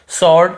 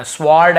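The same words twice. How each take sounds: First: स्वॉर्ड said "sawd", no w sound; correct silent-w pronunciation. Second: स्वॉर्ड misread as "swawrd", w sounded; wrong pronunciation demo. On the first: Teacher models it for learners: स्वॉर्ड with silent w. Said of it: "ऐसे पढ़ना है हमें". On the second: Teacher warns learners off a misreading: स्वॉर्ड with w sounded. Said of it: "ऐसे नहीं पढ़ना". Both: Shown as a demonstration.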